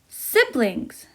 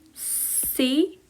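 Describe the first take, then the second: First: The word is said quickly, syllables joined. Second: The word is said slowly, syllables separated. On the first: "So we have to say fast now" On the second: "Let's separate these words"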